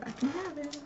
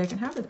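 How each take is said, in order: First: High, soft little voice; small high echo. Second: Said in the usual way. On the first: Real, not acted. Crafter echoing permission to have the item, small high voice. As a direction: repeat it higher and much softer.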